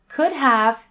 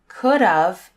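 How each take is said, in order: First: The second word is a full "have". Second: The second word sounds like "of". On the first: The speaker calls it right. "is correct" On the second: The speaker calls it wrong. "is incorrect"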